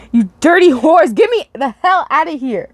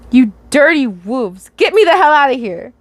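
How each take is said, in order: First: Corrected take. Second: Misread line. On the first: Acted. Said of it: "I gotta read this". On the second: Real, not acted. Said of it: "Did I really read that as wolves?".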